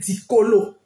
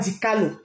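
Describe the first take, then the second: First: The middle vowel sounds like 'o'. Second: The middle vowel sounds like 'a'. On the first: The speaker calls it right. "il s'appelle Dicolo" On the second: The speaker calls it wrong. "Achille ne s'appelle pas Dicalo"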